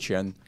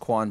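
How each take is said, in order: First: The name begins with a ch sound. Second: The name begins with a kw sound. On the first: This is how it is said in Chinese. The speaker calls it right. "in Chinese we actually pronounce it as Qian" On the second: This is how most people say it. The speaker calls it wrong. "everyone says Quan"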